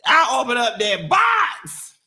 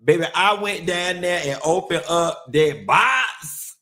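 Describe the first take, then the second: First: Louder, higher, shouted repeat. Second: Said in the usual way. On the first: Real, not acted. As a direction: shout it the second time.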